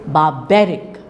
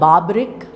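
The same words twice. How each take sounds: First: The stress falls on the second syllable. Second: The stress falls on the first syllable. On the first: The speaker calls it right. "it is barbaric" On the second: The speaker calls it wrong. "So it's not barbaric"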